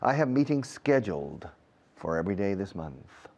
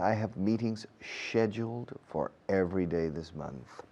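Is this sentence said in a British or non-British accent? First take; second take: non-British; British. First: The sentence is said in a non-British accent. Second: The sentence is said in a British accent.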